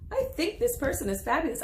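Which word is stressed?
fabulous. The word I is not stressed.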